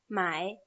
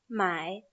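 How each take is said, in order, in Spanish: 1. La palabra se dice con el tercer tono. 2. La palabra se dice con el tercer tono.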